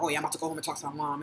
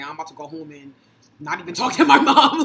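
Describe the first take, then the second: First: Quick, low, offhand quote; casual friend. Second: Mock refusal. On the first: Retold or imitated. Imitating friends heading home to talk to mom, casual. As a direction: toss it off lightly and fast. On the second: Joking about what her own friends said, laughing mock refusal. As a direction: build to a loud laughing punchline. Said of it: "that's what we used to say".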